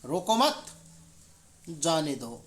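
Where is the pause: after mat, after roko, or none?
after mat. There is a pause after mat. Do not stop them; let them go. "तीसरे वाक्य में रोको मत के बाद अल्प विराम"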